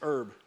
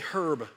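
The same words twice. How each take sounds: First: It is said with a silent h. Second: It is said with the h sounded.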